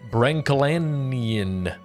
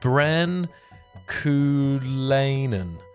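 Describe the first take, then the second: First: The name is read quickly as one run-together word. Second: The name is said carefully in separate parts. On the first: The speaker calls it wrong. "Butchered. Oh no, I'm sorry" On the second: The speaker calls it right. "you have to break it down"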